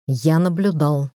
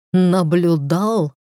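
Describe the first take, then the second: First: Said in the usual way. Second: Slow, outraged disbelief on Наблюдал; incredulous echo. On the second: A narrator's reading. Caleb echoing his friend's excuse, stunned and angry.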